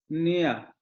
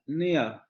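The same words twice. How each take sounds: The two takes are said the same way.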